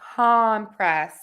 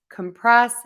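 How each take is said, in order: First: The stress is on the first syllable. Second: The stress is on the second syllable. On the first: "when we stress syllable number one, we're going to say that vowel, that ah vowel" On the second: "when we go to stress syllable number two in those words, we are going to make syllable number one that schwa"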